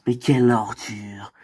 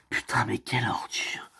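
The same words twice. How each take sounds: First: Said in the usual way. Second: Hushed, disgusted whisper. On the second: Acted. Friend whispering disgust about the boyfriend, hushed whisper. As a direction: breathe it out under your breath.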